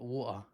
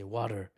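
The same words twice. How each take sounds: First: "water" with a soft t-less middle and no final r; non-American pronunciation. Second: "water" as "wah-der", with tapped t and sounded r; American pronunciation. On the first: Commentator owning up to a failed accent, "water" said "waw-uh". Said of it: "is not what they say". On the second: Commentator correcting his Trump accent, "water" said "wah-der". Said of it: "Should have said water". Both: Shown as a demonstration.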